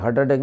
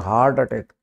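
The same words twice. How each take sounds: First: The first vowel sounds like the one in 'hurt'. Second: The first vowel is a long open 'aa' sound. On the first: The speaker calls it wrong. "हार्ट attack नहीं" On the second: The speaker calls it right. "हर्ट नहीं होता ये, यह होता है हार्ट"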